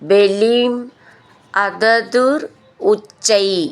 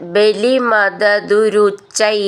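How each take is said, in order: First: The words are said separately, each on its own. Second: The words are run together into one stretch.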